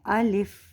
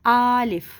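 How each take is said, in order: First: Both vowels are short and it ends in f. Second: The first vowel is drawn out long. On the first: The speaker calls it right. "इसकी सही अदायगी जो है वो है अलिफ" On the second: The speaker calls it wrong. "इसको इतना लंबा खींच देते हैं कि ये आलिफ बन जाता है"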